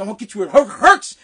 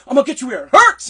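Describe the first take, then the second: First: Imitated stuttering threat. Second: Threat without stutter. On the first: Caddy master threatening a young caddy, stuttering on "hurts". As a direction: catch on "hurts", then punch it. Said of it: "he stuttered". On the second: Retold or imitated. Caddy master threatening a young caddy, loud and stutter-free. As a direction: deliver the threat cleanly, no stammer, louder. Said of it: "he didn't stutter that part".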